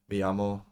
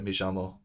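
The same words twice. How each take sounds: First: The 'll' is said with a Y sound. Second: The 'll' is said with a J sound.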